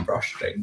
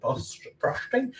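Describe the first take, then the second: First: Said in the usual way. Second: Frosting asked on a high, slow rise; puzzled question. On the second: Real, not acted. Baker unsure what to call buttercream, puzzled rising question. Searching for the right word.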